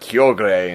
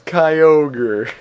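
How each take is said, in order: First: The name is said in a Japanese-style pronunciation. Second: The name is said in an American-style pronunciation. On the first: "that's I guess the Japanese one" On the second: "that's the American way of saying it"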